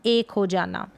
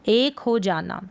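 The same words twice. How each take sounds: The two takes are said the same way.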